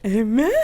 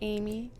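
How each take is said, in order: First: The name is said with lively energy. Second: The name is said plainly and normally.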